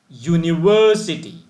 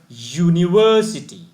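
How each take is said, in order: The two takes are said the same way.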